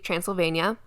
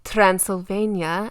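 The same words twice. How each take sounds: First: It is said in a plain everyday accent. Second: It is said in a put-on vampire accent.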